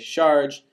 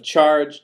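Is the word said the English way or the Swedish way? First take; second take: Swedish; English. First: It is said with a Swedish speaker's substitute sound. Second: It is said with the usual English sound. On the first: "they say charge" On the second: "Instead of charge"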